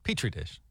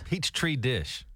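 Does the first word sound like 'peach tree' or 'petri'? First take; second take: petri; peach tree. First: The first word sounds like 'petri'. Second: The first word sounds like 'peach tree'. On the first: The speaker calls it right. "Got it" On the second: The speaker calls it wrong. "Who hasn't mispronounced a word?"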